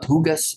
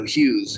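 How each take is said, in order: First: The name is said with a hard g sound. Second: The name is said with no g sound. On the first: The speaker calls it wrong. "So not Hugas" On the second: The speaker calls it right. "you don't pronounce the G, so Hughes"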